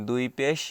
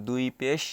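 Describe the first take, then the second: Both takes have the same delivery.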